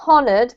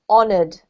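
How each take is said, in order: First: The initial H sound is pronounced. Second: The initial H sound is silent. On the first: The speaker calls it wrong. "not honoured" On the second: The speaker calls it right. "but silent H"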